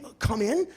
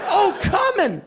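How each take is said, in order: First: Said in the usual way. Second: High, pushed-out cry; orgasmic exclamation. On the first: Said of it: "I didn't say". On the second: Shown as a demonstration. Man insists what he really cried out, high orgasmic exclamation. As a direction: exclaim it as if climaxing. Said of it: "I said".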